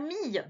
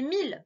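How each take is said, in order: First: The word ends with a y-like sound. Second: The word ends with a clear l sound. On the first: The speaker calls it wrong. "c'est pas mille" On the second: The speaker calls it right. "c'est mille, le nombre"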